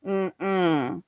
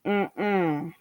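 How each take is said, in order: Both takes have the same delivery.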